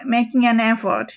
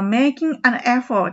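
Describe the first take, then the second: First: It is said fast, words linked. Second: It is said slowly, word by word.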